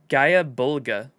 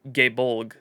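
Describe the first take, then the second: First: The name is said long, in several syllables. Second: The name is said short, in two syllables. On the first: This copies the form just heard in the video. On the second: This is the form heard in Japanese media. "I have always heard the Japanese pronunciation"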